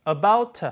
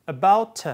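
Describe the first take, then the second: No difference in how they are said.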